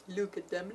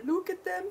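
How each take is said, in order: First: Said in the usual way. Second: Much higher, squealed look at them; high gushing squeal; excited squeal. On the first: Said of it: "repeats the phrase". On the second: Real, not acted. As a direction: squeal it with delight. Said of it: "repeats, high squeal".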